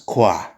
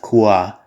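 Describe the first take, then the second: First: The vowels glide quickly into one syllable. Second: The vowels are said slowly as two syllables.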